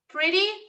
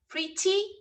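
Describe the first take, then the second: First: It is said with an American pronunciation. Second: It is said with a British pronunciation. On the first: "this R sound is more similar to the American pronunciation" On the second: "is more similar to the British pronunciation"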